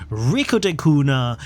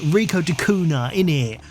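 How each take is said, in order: First: Said in the usual way. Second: Hammed-up London accent, dropped d in de; a mock Cockney London twang on Rico de Cunha; jokey London accent tacked onto the name; terrible London accent. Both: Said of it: "I should do it with a terrible London accent".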